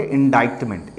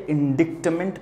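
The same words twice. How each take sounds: First: "इंडाइक्टमेंट" with a long "eye" sound in the second syllable; correct pronunciation. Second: "इंडिक्टमेंट" with a short "i" and the k sounded, in-DIK-ment; mistaken spelling pronunciation. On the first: Teacher showing students how to read the word, "इंडाइक्टमेंट" pronounced with "eye". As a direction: say "इंडाइक्टमेंट" as in-DYTE-ment, with "डाइ" like "die". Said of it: "इसको पहले तो पढ़ेंगे".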